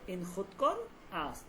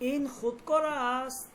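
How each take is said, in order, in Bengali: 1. এটা সাধারণ বিবৃতির সুরে বলা হয়। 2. এটা প্রশ্নসূচক সুরে বলা হয়। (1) "আর স্বাভাবিক যেটা" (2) "প্রশ্নবোধকটা আমি কিভাবে বলবো"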